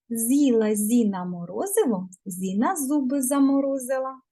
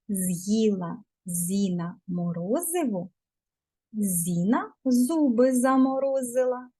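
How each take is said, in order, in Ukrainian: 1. Вона промовляється швидко, у жвавому темпі. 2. Вона промовляється у звичайному, неквапливому темпі.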